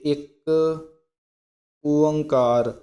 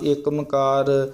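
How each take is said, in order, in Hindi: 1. दोनों शब्द स्पष्ट रूप से अलग-अलग रखे गए हैं। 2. दोनों शब्द मिलाकर एक शब्द की तरह बोले गए हैं। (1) "ਪਹਿਲਾਂ ਇੱਕ ਸ਼ਬਦ ਬੋਲਣਾ ਫਿਰ ਕਹਿਣਾ ਓਅੰਕਾਰ" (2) "ਅਣਗਹਿਲੀ ਦੇ ਨਾਲ"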